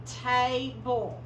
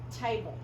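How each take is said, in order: First: Table stretched very slowly, ta-ble drawn out; slow model. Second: Said in the usual way. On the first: Shown as a demonstration. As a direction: drag out table for the kids to hear. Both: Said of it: "slow model then plain".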